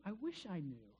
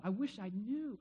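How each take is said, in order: First: Softer, trailing wish; quiet, longing echo; wistful quiet repeat. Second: Said in the usual way. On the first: Real, not acted. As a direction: let it fall away to yourself.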